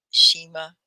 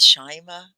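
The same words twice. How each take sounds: First: "Shima" with first vowel like "she"; long E vowel. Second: "Shima" with first vowel like "shy"; long I vowel. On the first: Teacher trying the student's name another way, "Shima" said SHEE-ma. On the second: Teacher checking a student's name, "Shima" said SHY-ma. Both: Shown as a demonstration. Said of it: "sometimes we don't get the vowels right, E or I".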